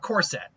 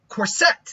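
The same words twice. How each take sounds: First: The stress is on the first syllable. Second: The stress is on the second syllable.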